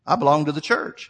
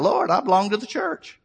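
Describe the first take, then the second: First: Said in the usual way. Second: High-pitched retold cry to God. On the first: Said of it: "He's thinking". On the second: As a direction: cry out in protest, imitating a desperate plea. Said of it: "He started crying out".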